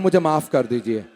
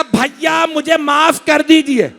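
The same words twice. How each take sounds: First: Said in the usual way. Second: High, drawn-out chanted plea; preached plea. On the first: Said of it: "आखिरी जुमला कह रहा हूं". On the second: Acted. Zainab begging her brother, high chanted plea. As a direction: plead like a sister in lament.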